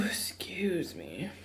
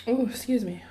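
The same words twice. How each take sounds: First: Slow breathy whispered excuse; whispering. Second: Said in the usual way. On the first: Real, not acted. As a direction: whisper it slowly, no voice.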